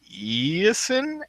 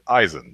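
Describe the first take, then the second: First: The first vowel is not an 'eye' sound. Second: The first vowel is an 'eye' sound. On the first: This is how others misread the spelling. The speaker calls it wrong. "E I in American phonics makes three different sounds, and none of them are I" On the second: This is how the name is meant to sound. The speaker calls it right. "chop the Hour off and you get Eisen"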